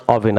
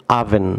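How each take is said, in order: First: "oven" said as "AW-vin", opening on অ; wrong pronunciation of oven. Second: "oven" said as "AA-ven", opening on আ; correct pronunciation of oven. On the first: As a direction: demonstrate "oven" wrongly with a rounded o. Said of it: "আপনারা অনেকে এটিকে ওভেন pronounce করে থাকেন". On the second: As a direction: model "oven" with an open "a" first vowel. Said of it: "এটি আ sound হবে". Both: Shown as a demonstration.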